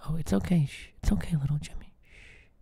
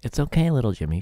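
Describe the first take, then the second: First: Soft hushed whisper; mock soothing whisper. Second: Said in the usual way. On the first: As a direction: hush him like a scared child. Boss hushes the employee.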